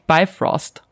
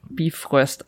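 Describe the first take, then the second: First: The name is said with an American English pronunciation. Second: The name is said with a German pronunciation.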